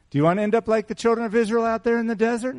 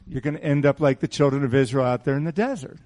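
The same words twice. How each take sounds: First: Fast, much higher challenging question; pointed question. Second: Said in the usual way. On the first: Shown as a demonstration. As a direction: push it at them as a challenge. Same warning asked as pointed question.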